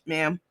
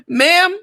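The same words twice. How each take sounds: First: Said in the usual way. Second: "Ma'am" called out high and loud through a laugh. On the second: Real, not acted. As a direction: shout "Ma'am" at her, laughing.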